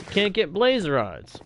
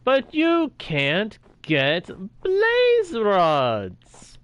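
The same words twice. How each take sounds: First: Said in the usual way. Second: Slow, higher, stretched-out sarcastic moan; drawn-out mock complaint. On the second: Real, not acted. Streamer mocking peaceful mode's missing blaze rods, slow and sarcastic. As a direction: drag every word out in exasperation.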